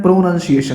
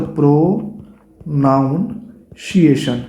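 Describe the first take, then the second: First: प्रोनाउंसिएशन said as pro-nun-see-ay-shun, no "noun" sound; the correct प्रोनाउंसिएशन, clear and even; correct pronunciation. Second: Slow drawn-out प्रोनाउंसिएशन with an extra o sound, pro-nown-si-ay-shun; the mistaken प्रोनाउंसिएशन, stretched out; common wrong pronunciation. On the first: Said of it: "होता क्या है". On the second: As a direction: say प्रोनाउंसिएशन slowly the wrong way students do. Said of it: "हम उसको बोलते". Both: Shown as a demonstration.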